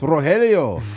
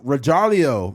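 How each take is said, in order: First: The name is pronounced in a Spanish-like way. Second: The name is pronounced in an English-like way. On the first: The name's owner is correcting the reader. The speaker calls it right. "It's Rogelio" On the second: Someone unfamiliar with the name is reading it. The speaker calls it wrong. "you keep getting my name wrong"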